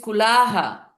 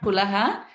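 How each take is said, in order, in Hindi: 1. स्वर लंबा खींचा गया है। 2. स्वर छोटा रखा गया है। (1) "but there is also Dirgham. ... it is Kulaha" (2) "It's not Kulaha"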